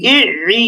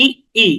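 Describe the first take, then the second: First: ই squeezed from the middle of the throat; doubled Arabic ayn on ই. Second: Short stopped ই, then a second ই; ই with a clean glottal catch; plain hamza ই, not from mid-throat; doubled hamza. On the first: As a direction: draw ই through a tightened throat. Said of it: "গলার মাঝখানে". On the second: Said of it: "জেরের উচ্চারণটা এভাবে হবে". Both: Shown as a demonstration.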